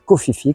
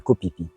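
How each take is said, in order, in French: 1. Les syllabes Phi commencent par un son f. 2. Les syllabes Phi commencent par un son p. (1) "on ne dit pas Koh Phi Phi" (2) "quand on parle de Koh Phi Phi"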